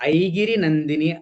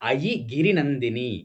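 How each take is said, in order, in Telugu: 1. ప్రారంభం ఒకే జారుడు 'ai' ధ్వని. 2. ప్రారంభం 'a' మరియు 'yi'గా విడిపోతుంది.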